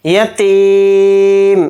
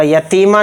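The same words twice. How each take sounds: First: यतीम chanted slowly, ending on a silent held म; correct pause form. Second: यतीमा with an extra a sound after the म; यतीमा ending in a vowel, the form you must not use here; wrong ending. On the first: Teacher chanting the correct stop for students. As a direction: stop on the म of यतीम, no vowel after it. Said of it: "इस तरह से पढ़ा जाएगा". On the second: Teacher showing students the wrong pause form. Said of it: "यतीमा नहीं पढ़ा जाएगा". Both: Shown as a demonstration.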